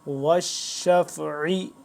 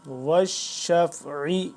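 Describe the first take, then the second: No difference in how they are said.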